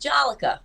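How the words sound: The name is said in a Rhode Island accent.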